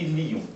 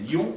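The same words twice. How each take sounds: First: "lion" in two syllables, li-on; "lion" with the i as a syllable of its own; diaeresis. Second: Said in the usual way. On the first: Shown as a demonstration. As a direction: pull "lion" apart into li-on. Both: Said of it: "Ça, c'est la diérèse".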